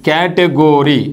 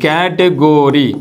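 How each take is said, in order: First: The third syllable has an 'oh' vowel. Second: The same.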